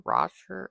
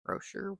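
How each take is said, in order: First: "Roshar" said RAH-sher, with an open ah; unsure pronunciation. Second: "Roshar" said ROH-sher, with a long o; unsure pronunciation. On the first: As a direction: try "Roshar" as a questioning RAH-sher, rising. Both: Shown as a demonstration. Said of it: "I'm not sure".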